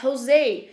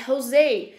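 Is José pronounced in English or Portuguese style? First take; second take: English; English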